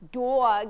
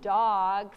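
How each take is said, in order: First: The vowel is said in a New Jersey accent. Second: The vowel is said in a general American accent. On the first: "if you're from New Jersey, then you would say" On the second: "instead of"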